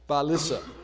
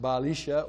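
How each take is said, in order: First: The middle consonant is a plain s sound. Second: The middle consonant is a sh sound. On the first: It is the western pronunciation. "Jeremiah wrote it as he heard it" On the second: It is the eastern pronunciation. "in the east, they would have pronounced it"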